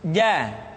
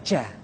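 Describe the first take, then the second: First: No breath flows out with the consonant. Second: Breath flows out with the consonant. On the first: The speaker calls it right. "dia tidak boleh mengalir nafas" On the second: The speaker calls it wrong. "Nafas yang mengalir"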